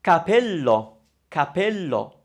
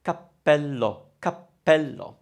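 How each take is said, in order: First: Capello with a short single p, no hold. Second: Cappello with a held double p. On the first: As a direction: say capello with one quick p. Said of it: "you actually weren't doubling up the p sound". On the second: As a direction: hold the p in cappello a beat before releasing. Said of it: "instead of saying cappello". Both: Shown as a demonstration.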